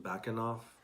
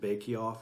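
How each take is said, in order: First: It sounds like 'backenoff', with a middle syllable. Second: It sounds like the English words 'bake off'. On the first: The speaker calls it right. "We found out the pronunciation Backenoff" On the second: The speaker calls it wrong. "we said bake off earlier"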